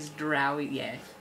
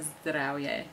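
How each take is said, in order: First: The R sound is a smooth English R. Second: The R sound is rolled or trilled. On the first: "if you were to say it with like English R" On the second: "you roll the R"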